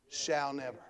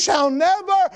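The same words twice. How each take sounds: First: Low, very soft afterthought; hushed repeat. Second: SHALL NEVER high and forceful; full-force emphasis. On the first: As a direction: let it sink in quietly after the peak. Same phrase dropped after peak. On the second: Phrase shouted at sermon's peak. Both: Real, not acted.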